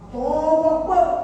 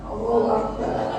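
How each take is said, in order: First: It is said fiercely, like a battle cry. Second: It is said in an exasperated, annoyed tone. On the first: The speaker is ready to fight. "Ada takbir mau berjuang" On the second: The speaker is fed up with family members. "Ada takbir yang melihat suami sama anak nyebelin, oh berbeda. Itu intonasinya beda"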